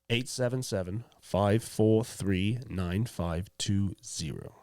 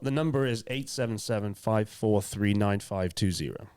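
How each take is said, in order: First: It is said slowly with pauses. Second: It is said at a quicker pace.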